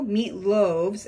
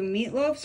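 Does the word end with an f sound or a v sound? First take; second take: v sound; f sound. First: The word ends with a v sound. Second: The word ends with an f sound. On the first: The speaker calls it right. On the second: The speaker calls it wrong.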